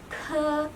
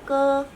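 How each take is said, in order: First: The consonant is released with a strong puff of air. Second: The consonant is released without a puff of air. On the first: "kita keluarkan udara yang lebih banyak" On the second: "mirip dengan pengucapan K dalam bahasa Indonesia"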